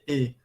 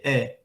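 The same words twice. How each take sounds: First: The vowel is pronounced closed. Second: The vowel is pronounced open. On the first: This is how people in São Paulo say it. "Em São Paulo, você vai ouvir" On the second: This is how people in Bahia say it. "nós falamos com as vogais abertas"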